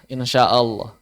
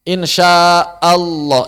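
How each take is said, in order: First: "insya Allah" slowly, with the L of Allah made heavy and full; slow model of "insya Allah", heavy L; demo tebal L. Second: "Insya Allah" stretched very long and slow, vowels held; contoh bacaan panjang. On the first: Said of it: "Berarti yang mau dibesarin berarti L pertamanya". ("insya Allah" pelan dengan L yang ditebalkan) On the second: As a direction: drag out "Insya Allah" to show the awkward long version. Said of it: "malah susah bacanya kita". ("Insya Allah" dipanjangkan sangat lambat) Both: Shown as a demonstration.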